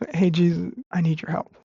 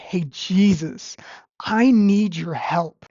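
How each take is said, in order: First: It is said in a calm, plain tone. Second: It is said in a forceful, aggressive tone.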